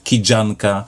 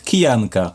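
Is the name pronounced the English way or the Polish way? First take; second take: English; Polish. First: The name is said with English sounds. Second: The name is said with Polish sounds. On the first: This is how reviewers mistakenly say it. The speaker calls it wrong. "she's not" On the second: This is her actual name. The speaker calls it right. "because she is"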